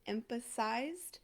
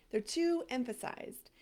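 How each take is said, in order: First: Emphasized drawn out slowly, rising like a question; testing the pronunciation. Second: Emphasized said firmly, falling at the end; settled pronunciation. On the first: Coach to her viewers, checking a word: slow, questioning. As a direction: try out the word Emphasized, unsure, ending up. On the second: Coach to her viewers, settling the word: firm, falling. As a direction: land the word emphasized with confidence. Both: Shown as a demonstration. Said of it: "Is that how we are gonna pronounce it?".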